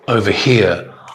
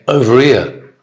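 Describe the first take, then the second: First: The h at the start of 'here' is pronounced. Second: The h at the start of 'here' is dropped. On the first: The speaker calls it right. "I won't say over here" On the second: The speaker calls it wrong. "I'll say over here"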